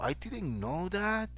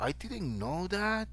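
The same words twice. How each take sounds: First: The phrase is said with surprised pitch variation. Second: The phrase is said with surprised pitch variation.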